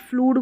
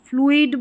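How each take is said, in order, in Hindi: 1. यह स्वर एक लंबी oo की तरह बोला जाता है। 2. यह स्वर दो ध्वनियों की तरह बोला जाता है, oo-ee।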